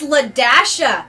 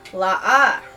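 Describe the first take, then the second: First: The dash is spoken aloud, said as Ladasha. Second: The dash is silent, said as La-a. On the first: The speaker calls it right. "It's Ladasha. Duh" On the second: The speaker calls it wrong. "a typical person would probably say"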